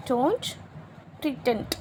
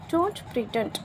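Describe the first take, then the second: First: "Don't", a long pause, then "pretend"; word by word. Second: Said in the usual way. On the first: Shown as a demonstration. Teacher repeating the phrase for learners, word by word with a pause after "Don't". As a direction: separate "Don't" from "pretend" clearly.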